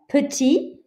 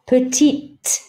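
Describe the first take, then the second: First: The word ends without a T sound. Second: The word ends with a T sound. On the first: This is the masculine form. "you don't hear this T" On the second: This is the feminine form. "this one you do"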